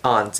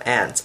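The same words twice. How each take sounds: First: The word sounds different from the insect ant. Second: The word sounds the same as the insect ant. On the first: It keeps the relative apart from the insect. "I always pronounce it as aunt ... because I don't want to cause confusion between um, my aunt and the insect" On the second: It could be confused with the insect. "instead of aunt"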